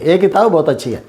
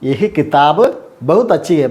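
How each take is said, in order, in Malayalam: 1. ആദ്യ വാക്ക് ഒറ്റ 'e' സ്വരമായാണ് ഉച്ചരിക്കുന്നത്. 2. ആദ്യ വാക്ക് 'yah' എന്നാണ് ഉച്ചരിക്കുന്നത്, h ഉണ്ട്. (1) "നമ്മൾ പറയുമ്പോൾ ഏ കിതാബ് ബഹുത് അച്ചി ഹേ എന്ന് പറയും" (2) "എഴുതുമ്പോൾ യഹ് കിതാബ് ബഹുത് അച്ചി ഹേ എന്നാണ് നമ്മൾ എഴുതുക"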